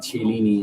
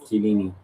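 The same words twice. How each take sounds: First: The name starts with a ch sound. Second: The name starts with a k sound. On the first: The speaker calls it wrong. "the cha came from because I did pronounce Chiellini" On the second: The speaker calls it right. "instead of Chiellini"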